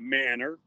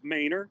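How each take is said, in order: First: Said the way an outsider would say it. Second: Said the way locals in Texas say it. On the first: The speaker calls it wrong. "you and I would say Manor" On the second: The speaker calls it right. "I'm going to say it with the Texas accent"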